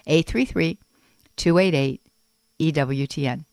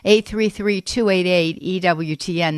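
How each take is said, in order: First: It is said slowly. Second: It is said fast.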